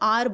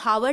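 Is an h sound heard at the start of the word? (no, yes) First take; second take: no; yes. First: The word begins directly with a vowel sound. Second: The word begins with an audible h sound. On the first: The speaker calls it right. "हम इसको आर बोलते हैं" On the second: The speaker calls it wrong. "हम इसको हावर नहीं बोलते"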